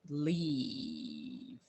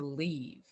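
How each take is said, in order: First: The word is said with a long, drawn-out vowel. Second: The word is said quickly, with a short vowel.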